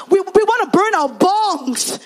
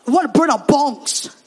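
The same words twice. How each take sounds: First: High, loud and slow on "burn our bongs"; insistent, drawn-out repetition of "burn our bongs"; emphatic repeat. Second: Loud, blunt announcement; put-on boxer voice, a bit loud; announcing boxer. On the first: Retold or imitated. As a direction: spell it out slowly and loudly. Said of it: "say that again". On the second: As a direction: declare it proudly to the pastor. Boxer announces plan to pastor.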